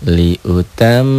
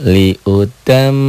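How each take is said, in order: No difference in how they are said.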